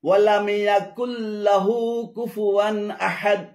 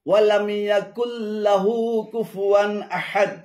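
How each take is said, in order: The two takes are said the same way.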